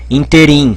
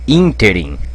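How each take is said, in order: First: The stress is on the second syllable. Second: The stress is on the first syllable. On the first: The speaker calls it wrong. "tem gente que fala interim" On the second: The speaker calls it right. "é interim. Interim, com acento aqui. É pró-paroxítono"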